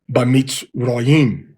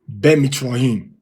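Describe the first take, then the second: First: The first syllable has an 'a' vowel. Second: The first syllable has an 'e' vowel. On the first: The speaker calls it right. "It makes Ba" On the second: The speaker calls it wrong. "some of you said it should be Be"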